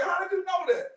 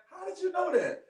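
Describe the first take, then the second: First: Higher, amazed "How did you know that?" with a push on "you"; the caught-out teacher asking in disbelief; imitating surprise. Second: High, amazed "How did you know that?" with stress on "you"; imitating surprise. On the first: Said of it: "She's like". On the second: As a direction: play the stunned teacher, pitch up on "you". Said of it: "And she just like".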